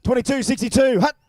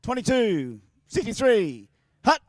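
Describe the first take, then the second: First: Higher and louder snap count, barked out; loud mock quarterback count; loud quarterback call. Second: Slow, drawn-out snap count; mock quarterback calling the snap. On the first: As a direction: shout the snap to the field. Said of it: "So we'll try again". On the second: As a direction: call the play like a quarterback. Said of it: "quarterback time".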